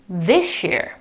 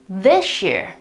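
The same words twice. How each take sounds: First: The s and y merge into sh. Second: The same.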